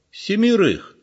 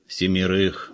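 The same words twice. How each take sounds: First: High, startled echo of the number; old man can't believe what he hears; shocked question. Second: Said in the usual way. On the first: A narrator's reading. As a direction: repeat it in disbelief.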